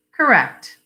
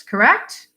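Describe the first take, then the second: First: "Correct" with a falling, final tune; "Correct" closed off firmly on a fall; confirming. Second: "correct" with a sharply rising question tune; "correct" lifted into a checking question. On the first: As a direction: answer "Correct" as a statement, pitch dropping. Wife confirms, echoing his word. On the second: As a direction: ask "correct" with the pitch climbing at the end. Husband asks wife to confirm. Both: Acted.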